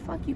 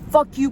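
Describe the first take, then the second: First: It is said in a calm, measured tone. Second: It is said in an angry, heated tone. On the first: A respectful expression of frustration. The speaker calls it right. "but more a" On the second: An outburst of hostility. The speaker calls it wrong. "not a, oh my"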